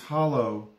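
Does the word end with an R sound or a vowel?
vowel. The word ends with a plain vowel. This is the standard way of saying it.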